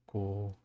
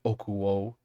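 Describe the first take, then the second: First: The vowels drop out, leaving one short syllable. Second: All syllables are said fully and clearly. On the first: It sounds like normal everyday speech. The speaker calls it right. "People will usually say ko" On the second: It sounds like a beginner speaking. The speaker calls it wrong. "That's very like a beginner way for that to sound"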